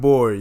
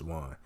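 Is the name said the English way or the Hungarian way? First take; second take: English way; Hungarian way. First: It is said like the English word board. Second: It is said with the Hungarian vowel sound. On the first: The speaker calls it wrong. "y'all technically aren't saying it correctly" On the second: The speaker calls it right. "It really is really pronounced"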